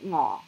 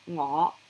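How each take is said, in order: First: The tone stays low and level. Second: The tone starts low and rises. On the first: It means hungry. "just the low tone ngo" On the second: It means I. "the I kind of goes up for the low rising"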